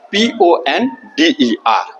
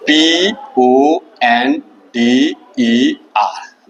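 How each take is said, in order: First: Letters read out a little slowly; teacher spelling the word for the class. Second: Very slow, each letter held apart; slow dictation. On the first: Teacher spells the word before dictating it, slightly slow. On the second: Teacher dictating the spelling to students, very slowly. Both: Shown as a demonstration. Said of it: "वो word क्या है देखिए".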